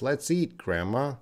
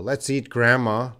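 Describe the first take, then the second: First: "Let's eat", a little break, softer "grandma" rising; little pause. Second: "Let's eat grandma" run together in one breath; no pause. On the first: Teacher contrasting meanings for students, little pause before "grandma". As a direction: pause briefly after "eat", lift "grandma". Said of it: "There's a little pause in English". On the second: Teacher contrasting meanings for students, "eat grandma" with no pause. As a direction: join "eat" straight onto "grandma". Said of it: "no pause". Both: Shown as a demonstration.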